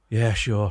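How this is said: It sounds grudging and reluctant.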